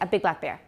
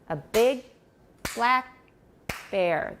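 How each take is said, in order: First: The words run together without pauses between them. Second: Short pauses separate each of the stressed words. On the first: The speaker calls it wrong. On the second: The speaker calls it right.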